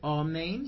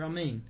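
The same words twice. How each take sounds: First: The first vowel is a full, clear a. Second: The first vowel is short and reduced. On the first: The speaker calls it right. "He doesn't say amen" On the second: The speaker calls it wrong. "As though it were amen"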